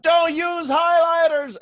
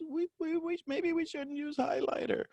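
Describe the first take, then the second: First: Loud, high, drawn-out shout; screaming. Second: Tiny high, soft squeak of a voice; timid mouse, very high and quiet. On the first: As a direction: scream it over all the noise in the brain. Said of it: "had to scream it so loud". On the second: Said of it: "the voice of a mouse". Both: Acted.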